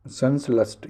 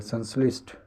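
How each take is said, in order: First: संश्लिष्ट said as sans-last; last for lisht. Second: Said in the usual way. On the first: Shown as a demonstration. Teacher showing the mistake, संश्लिष्ट ending in last. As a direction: turn the li of संश्लिष्ट into la. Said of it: "ये लस्ट". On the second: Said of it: "ये गलत".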